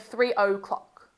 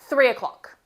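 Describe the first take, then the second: First: The two words are pronounced separately and carefully. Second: The two words run smoothly together as one. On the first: "Rather than saying" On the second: "We normally kind of marry those words together. We say"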